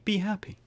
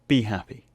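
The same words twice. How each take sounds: First: It is said plainly, in a gentle tone. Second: It is said harshly, in a bullying tone. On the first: "But if I just say" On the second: "I came in with that pretty harsh"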